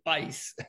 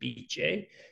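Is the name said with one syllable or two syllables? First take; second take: one; two. First: The name is said as one syllable. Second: The name is said as two syllables. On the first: It avoids confusion on the phone. The speaker calls it wrong. "So I now say Bice just when I'm on the phone" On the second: It is the proper Italian name. The speaker calls it right. "The correct pronunciation is called B J"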